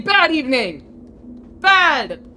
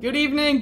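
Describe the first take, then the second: First: Loud, drawn-out cross correction; grumpy outburst. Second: Said in the usual way. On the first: Real, not acted. Gamer correcting a greeting after failing, loud grumpy outburst. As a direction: punch BAD loudly, higher on the last.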